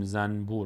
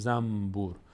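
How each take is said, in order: First: The consonant before b is an n sound. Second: The consonant before b is an m sound. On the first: The speaker calls it wrong. "نمیگیم زنبور" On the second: The speaker calls it right. "میگیم زنبور، به جای نون میم تلفظ میکنیم"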